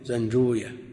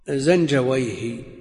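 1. ينتهي الاسم بمقطع '-uyah'. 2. ينتهي الاسم بمقطع '-wayh'. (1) "أما أهل الحديث فيقول" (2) "هكذا تنطق عند أهل اللغة"

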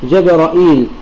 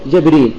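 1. فتحة، همزة تتبعها ياء مدّ. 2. فتحة على الجيم، ياء مدّ بعد الراء، بلا همزة. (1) "بفتح الجيم والراء وإثبات الهمزة المكسورة وإثبات الياء بعدها" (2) "فتح الجيم وكسر الراء وحذف الهمزة وإثبات الياء"

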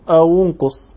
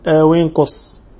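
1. حركة همزة الوصل بعد 'aw' ضمة. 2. حركة همزة الوصل بعد 'aw' كسرة. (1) "تقول أو انقص لأن انقص هذا الفعل ثالثه مضموم" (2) "ويمكن أن تكسره"

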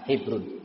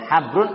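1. Vokal pertama adalah bunyi 'i' depan. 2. Vokal pertama adalah bunyi 'a' terbuka. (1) "atau dengan mengkasrah haknya" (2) "Bisa dengan memfathah haknya"

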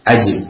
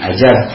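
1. Huruf hidup kedua adalah bunyi 'i'. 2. Huruf hidup kedua adalah bunyi 'a'. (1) "tapi ajib" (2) "bukan ajab"

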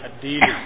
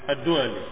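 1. Nama itu diucapkan dengan vokal 'i', Dili. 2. Nama itu diucapkan dengan vokal 'u', Du'ali. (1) "kadang dipanggil juga atau dibaca dengan الديلي" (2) "ويقال أيضا"

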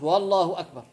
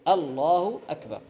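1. يأتي صوت w زائد قبل الله. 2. لا يأتي أي صوت زائد قبل الله.

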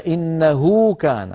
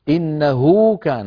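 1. الحركة بعد الهاء مُشبَعة. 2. الحركة بعد الهاء مُشبَعة.

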